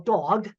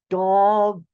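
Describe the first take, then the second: First: The word is said at a normal pace. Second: The word is said slowly, each sound drawn out.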